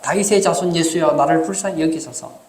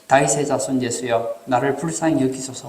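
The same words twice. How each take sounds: First: It is shouted loudly. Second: It is read in a normal voice.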